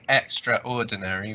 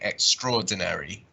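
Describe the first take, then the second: First: The 'a' after 'extr' is clearly pronounced. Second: The 'a' after 'extr' is silent. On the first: The speaker calls it wrong. "we don't say extraordinary" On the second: The speaker calls it right. "the A kind of becomes silent here"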